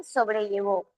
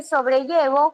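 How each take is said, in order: First: "sobrellevó" stressed on the last syllable, so-bre-lle-VÓ; stress on final VÓ. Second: "sobrellevo" stressed on the third syllable, so-bre-LLE-vo. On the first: Teacher shows E can change, stressing so-bre-lle-VÓ. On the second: Teacher tests alternative E, stressing so-bre-LLE-vo. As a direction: put the weight on LLE in "sobrellevo". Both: Shown as a demonstration. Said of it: "Varías el acento y cambia el significado".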